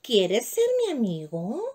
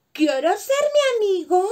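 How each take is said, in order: First: Slow, gentle, shy asking; little mouse shyly asking another mouse; sweet and timid. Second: Calling up high and loud; shouting up. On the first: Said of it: "Con voz dulce y tímida". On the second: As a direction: yell the question up to a tall giraffe. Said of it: "le preguntó gritando". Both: A narrator's reading.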